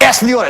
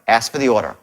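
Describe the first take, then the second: First: It is said in a forceful, pushy tone. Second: It is said in a calm, caring tone.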